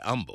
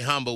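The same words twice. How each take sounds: First: The word begins with a vowel, no h sound. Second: The word begins with an audible h sound. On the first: "They say humble" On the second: "some people don't say humble with an H"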